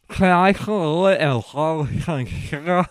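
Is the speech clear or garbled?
garbled. The words sound garbled, without tongue use.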